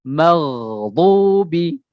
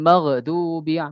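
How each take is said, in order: First: The gh sound closes cleanly without a bounce. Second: An extra vowel bounce follows the gh sound. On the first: The speaker calls it right. "Maghdubi seperti itu" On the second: The speaker calls it wrong. "tawallud ketika membacanya. Tidak boleh seperti itu"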